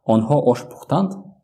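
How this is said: It has the tune of a question. Did they cook pilaf? "if you say it like the question, it will be the question"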